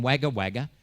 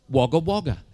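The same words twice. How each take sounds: First: Wagga Wagga with flat "a" as in "wag"; as written. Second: Wagga Wagga with "o" sound, WOG-uh WOG-uh; as pronounced locally. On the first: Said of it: "it was written Wagga Wagga". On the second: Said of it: "pronounced Wagga Wagga". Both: Shown as a demonstration.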